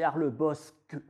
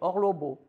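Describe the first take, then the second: First: The name has a standard French pronunciation. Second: The name has the local patois pronunciation. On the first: This is the form imposed by the French language. The speaker calls it wrong. "prétendue langue française qui est arrivée il y a deux siècles en nous disant non, c'est Arlebosque" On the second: This is the long-standing local form. The speaker calls it right. "ça se dit Orlobo depuis 1912"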